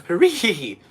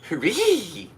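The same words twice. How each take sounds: First: Loud laughing hooray; first try at a cheering hooray; cheer take. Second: High, loud hooray; second go at the cheer, higher; better cheer. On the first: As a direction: shout it with a laugh. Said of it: "That was terrible". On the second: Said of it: "You really gotta get, like, the basses". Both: Shown as a demonstration.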